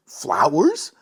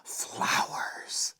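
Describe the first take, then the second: First: Said in the usual way. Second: "Flowers" breathed in a soft whisper; a soft hushed whisper of "Flowers". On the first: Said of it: "Lily listed". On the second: A narrator's reading.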